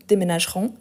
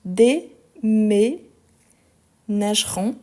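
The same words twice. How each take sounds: First: Said in the usual way. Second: "déménageront" very slow, split dé, mé, nageront; syllable by syllable. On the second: Shown as a demonstration. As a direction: break "déménageront" into long separate syllables, stressing each é. Teacher sounds out accented syllables. (« déménageront » très lentement, syllabe par syllabe)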